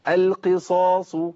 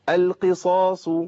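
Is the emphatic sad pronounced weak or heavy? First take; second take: heavy; heavy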